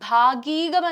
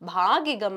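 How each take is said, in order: First: The middle i vowel is lengthened. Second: The middle i vowel is kept short. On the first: The speaker calls it wrong. "ഭാഗീകമല്ല" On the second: The speaker calls it right. "ഇകാരം ദീർഘിക്കേണ്ട ഹ്രസ്വമായിട്ടുള്ള ഇകാര ചിഹ്നം"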